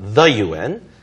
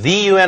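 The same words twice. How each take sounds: First: 'The' is said with a short 'uh' vowel. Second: 'The' is said with a long 'ee' vowel. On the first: The speaker calls it right. "그렇게 쓰는 게 맞죠" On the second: The speaker calls it wrong. "아니고"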